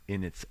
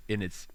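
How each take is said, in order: Both takes have the same delivery.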